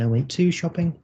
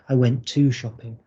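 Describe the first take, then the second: First: The pitch rises questioningly on the word 'to'. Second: The pitch stays level, said as a plain statement. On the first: The word 'to' is the part that needs correcting. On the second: The speaker makes the statement.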